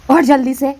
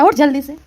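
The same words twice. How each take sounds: First: Much louder, higher yell; louder shout. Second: Louder, higher shout to wake her. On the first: Mother-in-law yelling again at the sleeping bride, much louder. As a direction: bellow it to wake her. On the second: Mother-in-law shouting at the sleeping bride, louder. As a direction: yell her out of bed. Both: Acted.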